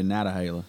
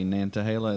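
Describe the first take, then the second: First: No N sound comes before the T. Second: An N sound comes before the T. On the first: The speaker is a local North Carolinian. "we say Natahala" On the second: The speaker is from outside the region. "they always say Nantahala"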